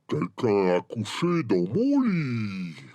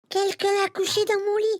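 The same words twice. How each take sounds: First: It is said in a deep, gruff voice. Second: It is said in a tiny, high voice.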